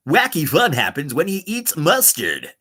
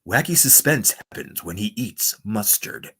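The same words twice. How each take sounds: First: Bouncy, swooping promo read; upbeat radio voice. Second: Slow, low, softer announcer; suspenseful radio voice. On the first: Streamer voicing a silly mustard promo, playful upbeat announcer. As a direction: sell it as wacky fun. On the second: Streamer voicing a silly mustard promo, slow suspenseful announcer. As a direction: draw it out ominously for suspense. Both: Pretend.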